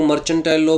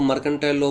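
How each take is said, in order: First: मर्चेंटाइल said with a "ch" sound; "ch" pronunciation. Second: मर्केंटाइल said with a hard "k"; hard "k" in the middle of मर्केंटाइल; "k" pronunciation. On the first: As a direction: say मर्चेंटाइल as "mer-chen-tile". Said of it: "कुछ लोग मर्चेंटाइल law बोलते हैं". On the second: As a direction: say मर्केंटाइल as "mer-ken-tile". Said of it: "कुछ लोग मर्केंटाइल law बोलते हैं". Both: Shown as a demonstration.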